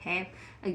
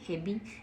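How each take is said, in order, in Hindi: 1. यह शब्द छोटी 'v' की आवाज़ से खत्म होता है। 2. यह शब्द एक अलग 'bee' अक्षर से खत्म होता है। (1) "इसको इंग्लिश में क्या बोलेंगे?" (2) "यदि आप बारह खड़ी से पढ़ोगे तो क्या बोलोगे?"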